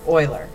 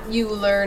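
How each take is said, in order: First: The name starts with an 'oy' sound. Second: The name does not start with 'oy'. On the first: The speaker calls it right. "it'd be like oil-er" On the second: The speaker calls it wrong. "Not Euler"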